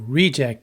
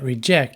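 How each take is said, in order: First: The stress falls where the noun puts it. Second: The stress falls where the verb puts it. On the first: It names a thing. "reject is a noun" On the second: It names an action. "but reject is a verb"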